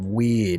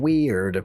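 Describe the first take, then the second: First: The final D is soft and light. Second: The final D is hard and full. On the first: This is how the speaker's own accent says it. "We have weird" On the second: This is how the Australian accent says it. "they have weird"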